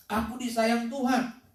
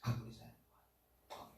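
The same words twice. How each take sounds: First: Said in the usual way. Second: Whispered. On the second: Shown as a demonstration. Pastor leads the church in a self-affirmation, whispered. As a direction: whisper "Aku disayang Tuhan" with no voice. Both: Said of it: "berkatalah-katalah kepada dirimu".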